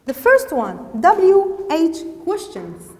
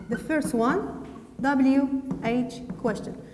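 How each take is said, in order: First: Loud, emphatic lesson heading; announcing a heading. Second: Said in the usual way. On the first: Shown as a demonstration. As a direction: announce it firmly to the class.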